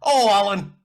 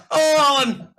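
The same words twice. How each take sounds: First: Put-on loud, high English soap accent, Coronation Street style. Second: Louder, higher hammed Coronation Street accent. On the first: Mimicking actresses at the audition, loud Coronation Street accent. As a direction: ham up a Coronation Street accent calling Alan. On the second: Mimicking actresses at the audition, even bigger Coronation Street accent. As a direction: overdo the Coronation Street accent calling Alan. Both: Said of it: "they had, like, Coronation Street accents".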